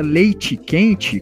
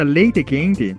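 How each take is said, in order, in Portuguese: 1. As vogais finais têm um som de I. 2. As vogais finais têm um som de E claro. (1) "com I" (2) "com ênfase no último E, com som de E"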